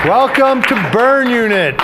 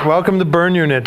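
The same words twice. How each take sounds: First: Big show opening. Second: Said in the usual way. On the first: Acted. Host opens show.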